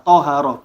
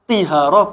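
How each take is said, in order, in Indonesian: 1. Vokal pertama adalah bunyi a. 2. Vokal pertama adalah bunyi i. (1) "dibaca fathah tahara" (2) "bukan tihara"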